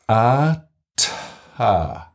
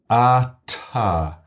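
First: It is said very slowly with a silence. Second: It is said at a normal, quick pace.

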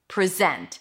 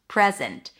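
First: The stress is on the second syllable. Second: The stress is on the first syllable. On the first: It is a verb: to show or offer. "If it's a verb, the stress is going to be on the second syllable" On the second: It is a noun: a gift. "I want to give you a present"

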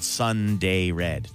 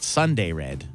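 First: Each syllable is said as a separate word. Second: The first two syllables run together as one word. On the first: The speaker calls it right. "it's three words" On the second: The speaker calls it wrong. "Not Sunday Red"

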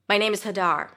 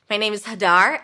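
First: The pitch goes up, then falls at the end. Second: The pitch rises at the very end. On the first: The speaker sounds certain and confident. "So I bring my voice up at the end, but then I drop it down" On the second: The speaker sounds uncertain, as if awaiting a response. "I'm going to use the upspeak, rising intonation at the end of sentences"

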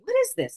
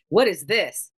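First: It sounds genuinely curious and open. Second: It sounds dismissive, like arms crossed.

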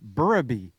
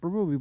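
First: The name is said as 'Burraby'. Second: The name is said the common way, 'Berube'. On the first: This is how the family says it. The speaker calls it right. "but it's actually Burraby" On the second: This is how most people say it. The speaker calls it wrong. "Everybody in the NHL calls it Berube"

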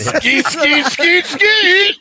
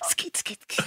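First: It is said aloud in a full voice. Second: It is whispered in a sexy voice.

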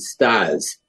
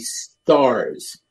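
First: It is said in a Boston accent. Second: It is said in a standard accent.

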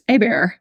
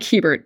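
First: The name is said with French pronunciation. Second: The name is read as English spelling suggests. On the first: The speaker calls it right. "it's pronounced Hébert because it's French" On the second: The speaker calls it wrong. "It looks like Hébert"

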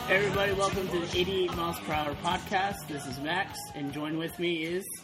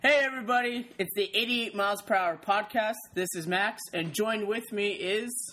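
First: It is said in a stiff, flat way. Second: It is said with lively, natural energy.

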